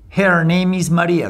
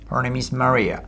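First: The first vowel sounds like the vowel in hair. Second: The first vowel is an r-coloured schwa. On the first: It means the hair's name is María. The speaker calls it wrong. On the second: It means her name is María. The speaker calls it right.

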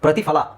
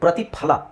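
First: The consonant before 'la' is an f sound. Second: The consonant before 'la' is an aspirated p. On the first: The speaker calls it wrong. "ತುಂಬ ಜನ ಪ್ರತಿಫಲ ಅಂತ ಹೇಳ್ತಾರೆ" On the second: The speaker calls it right. "Actually ಪ್ರತಿಫಲ"

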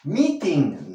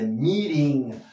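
First: The t is a hard, released t sound. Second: The t is a quick flap like r. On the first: The speaker calls it wrong. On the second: The speaker calls it right. "la eta T se va a pronunciar como una R"

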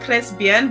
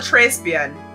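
First: The R is rolled in a French style. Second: The R is said with an American accent. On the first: "roll my R's like" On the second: "sound ungodly American-like"

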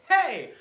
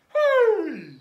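First: The voice is tight and pushed from the throat. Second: The voice is open and resonant from deep breath. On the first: The breath is set up for yelling at somebody. The speaker calls it wrong. "I don't want to play like hey" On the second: The breath is set up for a singing sound. The speaker calls it right. "I want to play like hey!"

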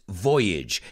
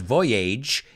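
First: The ending rhymes with bridge. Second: The ending does not rhyme with bridge. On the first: The speaker calls it right. "it's voyage, que rima con bridge" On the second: The speaker calls it wrong. "no es voyage"

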